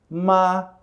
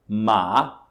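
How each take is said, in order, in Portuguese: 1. O tom fica plano e uniforme do início ao fim. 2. O tom sobe, de grave para agudo. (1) "o tom plano. ... ele não tem alteração" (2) "O segundo tom é o tom que sobe"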